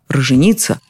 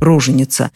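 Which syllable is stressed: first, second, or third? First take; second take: third; second. First: The stress falls on the third syllable. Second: The stress falls on the second syllable. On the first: "Используют даже и такой экзотический вариант" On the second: "это слово частенько произносится иначе"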